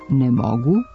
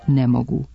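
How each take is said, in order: First: The stress falls on the word mogu. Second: The stress falls on the word ne. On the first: The speaker calls it right. "umjesto pravilnog ne mogu" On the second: The speaker calls it wrong. "nepravilan oblik ne mogu"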